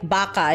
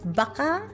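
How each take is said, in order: First: It is said plainly with a level ending. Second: It is said like a question, rising.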